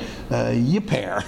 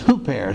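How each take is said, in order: First: The word begins with a y sound. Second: The word begins with an h sound. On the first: The speaker calls it wrong. "so it looks like yipair" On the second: The speaker calls it right. "but it's hooper"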